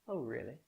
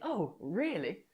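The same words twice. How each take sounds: First: The voice sounds questioning and doubtful. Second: The voice sounds interested and engaged. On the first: The listener does not agree. "you can tell from my tone ... that I'm questioning" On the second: The listener wants to hear more. "if I was interested in what you were saying"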